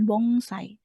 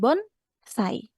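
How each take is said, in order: First: The consonant before the S sounds like ng. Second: The consonant before the S sounds like n. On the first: The speaker calls it wrong. "bukan bongsai" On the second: The speaker calls it right. "dibacanya tetap N"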